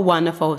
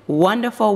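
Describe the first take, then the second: First: Said in the usual way. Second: Excited. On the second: Real, not acted.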